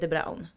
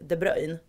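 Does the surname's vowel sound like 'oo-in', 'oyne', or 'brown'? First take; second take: brown; oyne. First: The name rhymes with the English word 'brown'. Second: The name ends with an 'oyne' sound. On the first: This is the name as its owner says it. The speaker calls it right. "Han heter De Braun" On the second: This is how other people say the name. The speaker calls it wrong. "eller De Bruyne"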